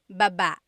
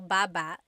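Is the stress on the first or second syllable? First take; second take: second; first. First: The stress is on the second syllable. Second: The stress is on the first syllable.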